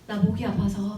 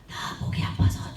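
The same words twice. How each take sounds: First: The voice is relaxed and free of strain. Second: The voice is small and squeezed from the throat. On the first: The speaker calls it right. "편안하게 말할게. 힘만 빼고 말씀하시면 됩니다" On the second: The speaker calls it wrong. "이렇게 하는 행동은 성대를 쥐어짜는 아주 최악의 소리입니다"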